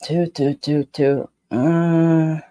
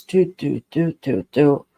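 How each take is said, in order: First: Unsure beats trailing into a doubtful uh; a dog that isn't committing; wavering mock alert sound; hesitant dog response. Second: Even, sure beats, each one the same; steady confident dog response. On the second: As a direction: mark it like a dog that knows. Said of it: "this is it". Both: Shown as a demonstration.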